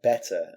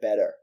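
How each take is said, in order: First: The T in the middle is crisp. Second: The T in the middle is soft. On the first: The speaker calls it right. "say that one like better" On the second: The speaker calls it wrong. "she said better"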